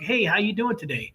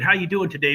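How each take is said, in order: First: It is said warmly, with genuine interest. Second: It is said in a routine, perfunctory way.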